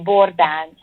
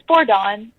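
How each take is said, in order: First: The surname is said the Hungarian way. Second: The surname is said the American English way. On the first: "if you were to pronounce it Hunga- in Hungarian" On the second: "It's Bordon"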